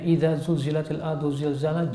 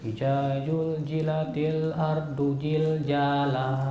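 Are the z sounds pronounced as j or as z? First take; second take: z; j. First: The z sounds are pronounced as z. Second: The z sounds are all pronounced as j.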